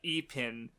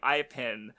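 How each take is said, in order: First: The name is said with Japanese pronunciation. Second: The name is said with English pronunciation. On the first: The speaker calls it right. "going by Japanese pronunciation" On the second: The speaker calls it wrong. "my English speaking brain wants to pronounce her name Ipin"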